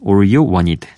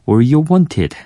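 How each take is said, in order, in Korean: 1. 'wanted'의 t는 부드럽게 약해지고 살짝 굴려서 나요. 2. 'wanted'의 t는 또렷하고 분명하게 나요. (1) "미국 발음으로는" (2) "영국 발음으로는"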